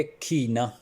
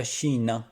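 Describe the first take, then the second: First: کھینا said with a harsh kh at the start; کھینا as the mistaken khina; wrong kh sound. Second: شینا said with a clear sh at the start; correct sh sound. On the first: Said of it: "آپ نے کھو کی آواز نہیں ادھر نکالنی". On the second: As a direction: say شینا as sheena, with sh not kh. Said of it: "یہ شین کی آواز دیتا ہے". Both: Shown as a demonstration.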